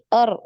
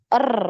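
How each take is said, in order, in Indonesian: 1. R digetarkan dengan satu getaran. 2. R digetarkan dengan banyak getaran. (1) "Jadi sekali er" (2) "Bukan er, er. Ini kebanyakan"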